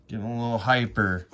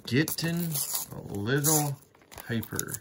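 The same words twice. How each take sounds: First: Said in the usual way. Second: Mock hyper. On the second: Vlogger teasing himself for being hyper, high sing-song. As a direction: playfully act out being hyper, high and singsong.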